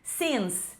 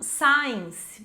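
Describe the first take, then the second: First: The vowel sounds like the vowel in 'it'. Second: The vowel sounds like the word 'eye'. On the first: The speaker calls it right. "é since" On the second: The speaker calls it wrong. "Vejo muitos alunos falando science, mas não é science"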